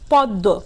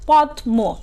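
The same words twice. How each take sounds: First: The d is doubled and the m is silent. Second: The m sound after the d is pronounced. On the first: The speaker calls it right. "কিন্তু আমরা বলি কি" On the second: The speaker calls it wrong. "মফলা সহ উচ্চারণ করি তাহলে হবে"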